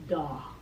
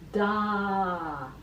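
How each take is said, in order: First: The vowel falls back in the mouth. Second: The vowel is placed forward in the mouth. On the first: The speaker calls it wrong. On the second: The speaker calls it right.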